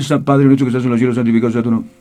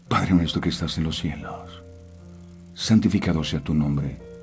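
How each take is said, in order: First: It is rattled off mechanically, without feeling. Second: It is said thoughtfully, with meaning.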